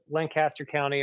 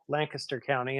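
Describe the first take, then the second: First: Lancaster is pronounced the way outsiders say it. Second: Lancaster is pronounced the way locals say it. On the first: The speaker calls it wrong. "I butcher it every time" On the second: The speaker calls it right. "if you're from there"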